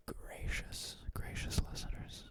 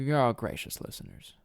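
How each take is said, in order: First: Whispered, very soft; hushed, voiceless whisper; playful whisper. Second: Said in the usual way. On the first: Shown as a demonstration. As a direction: whisper the nickname, savouring it. Playing with the new nickname.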